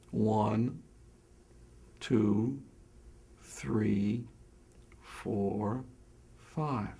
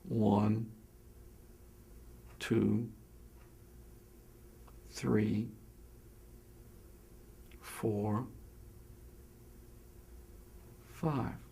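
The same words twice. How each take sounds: First: The counting is slower, with longer gaps. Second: The counting is slowest, with the longest gaps.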